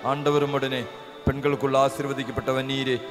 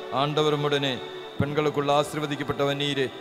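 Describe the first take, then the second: No difference in how they are said.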